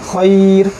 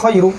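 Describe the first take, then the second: First: The word ends on r with no vowel. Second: The word ends with a short vowel after r. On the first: The reading stops at this word. "যদি থামি আমরা তাহলে খইর" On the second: The reading continues into the next word. "এটাকে এইভাবে পড়া যায় খইরু"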